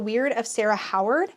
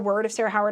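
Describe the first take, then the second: First: The first word sounds like 'weird'. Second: The first word sounds like 'word'.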